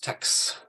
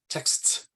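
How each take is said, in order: First: The final consonant cluster is simplified, dropping sounds. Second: All final consonants are pronounced in the cluster. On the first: "most people probably reduce that that um, coda" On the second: "So the way to pronounce it is texts"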